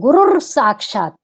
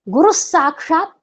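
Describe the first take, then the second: First: An r sound joins guru to saakshaat. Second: No r sound comes between guru and saakshaat. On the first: The speaker calls it wrong. "कई लोग गुरुर साक्षात, ये उचित नहीं है।" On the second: The speaker calls it right. "गुरु साक्षात ये सबसे अनुकूल है।"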